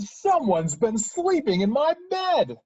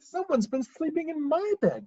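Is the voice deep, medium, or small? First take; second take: deep; medium. First: It is said in a big, deep voice. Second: It is said in a middle-sized voice. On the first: "in his great, huge voice" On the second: "in her medium-sized voice"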